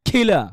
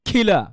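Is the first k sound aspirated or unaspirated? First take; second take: aspirated; aspirated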